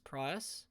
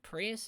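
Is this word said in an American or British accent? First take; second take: British; American. First: The word is said in a British accent. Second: The word is said in an American accent. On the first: "with uh, British English, I had to learn how to say" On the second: "instead of"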